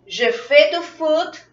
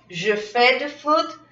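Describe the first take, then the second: First: Je fais du foot, slow and high, fais rising; teacher modelling for repetition; slow model repeat. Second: Said in the usual way. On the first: Shown as a demonstration.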